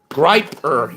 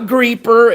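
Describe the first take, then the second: First: The first vowel sounds like 'eye'. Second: The first vowel sounds like 'ee'. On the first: The speaker calls it right. "it's Griper" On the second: The speaker calls it wrong. "It's not Greeper"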